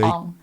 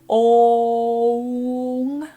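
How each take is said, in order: First: The O vowel is short. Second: The O vowel is long. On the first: The speaker calls it wrong. "not a short O sound like a lot of people default to" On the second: The speaker calls it right. "it's really a long O sound"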